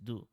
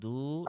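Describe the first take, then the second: First: The vowel after d is kept short. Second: The vowel after d is stretched long. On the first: The speaker calls it right. "dal must not be stretched" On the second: The speaker calls it wrong. "It is not do"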